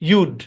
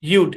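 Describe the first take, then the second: First: The words are joined into one short syllable. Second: The words are joined into one short syllable.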